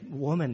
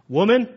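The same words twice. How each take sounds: First: It is said tenderly and respectfully. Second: It is said harshly, like a rebuke.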